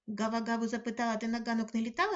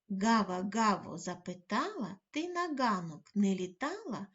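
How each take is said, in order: First: It is spoken very quickly in one breath. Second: It is spoken at a normal, careful pace. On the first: "Готові вимовляти дуже швидко?" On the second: "Послухайте ще раз скоромовку"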